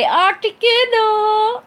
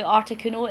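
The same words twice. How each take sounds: First: Articuno! called out high, loud and stretched slowly; excited shout. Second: Said in the usual way. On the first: Real, not acted. Reading chat, she shouts out her tattoo's name excitedly. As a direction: cry the name out with delight.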